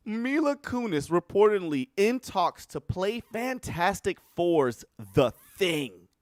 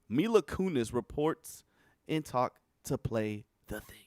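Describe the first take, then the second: First: Higher, louder, slowing on the last words; announcing the news with disbelief; incredulous headline. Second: Said in the usual way. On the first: Real, not acted. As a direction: read it as if you can't believe it.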